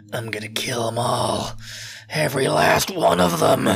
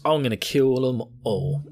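First: Hammed-up vow of revenge, drawn out; vengeful Eren. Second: Said in the usual way. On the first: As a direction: start whispered, end in forceful menace. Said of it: "Who, who says that?". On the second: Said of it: "She's like, you know".

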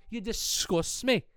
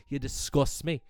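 First: Slow, higher, drawn-out You disgust me. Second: Said in the usual way. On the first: Acted. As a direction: stretch it out with scorn.

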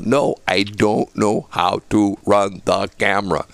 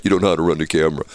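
First: Slow, word-by-word insistence; slow, deliberate, every word separated; emphatic insistence. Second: Fast, low brush-off; quick, lower-pitched scoffing reply; dismissive disbelief. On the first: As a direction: spell it out slowly to a doubter. Insists to disbelieving neighbour. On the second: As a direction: rattle it off as if not buying it. Neighbour disbelieves him, dismissive. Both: Retold or imitated.

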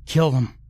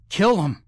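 First: Higher frantic urging cry; frantic battle cry. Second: Much higher, desperate repeat of the cry; shrill frantic battle cry; frantic scream. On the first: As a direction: egg him on to fight. Urging friend to attack. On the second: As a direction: push harder, climbing in pitch. Repeats urging louder. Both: Acted.

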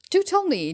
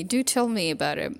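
First: Pitched much higher and louder, bursting out; eager request. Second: Said in the usual way. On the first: Real, not acted. Vlogger begging viewers to share their stories, high and loud. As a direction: leap up high and loud on "Do tell me" to beg for stories.

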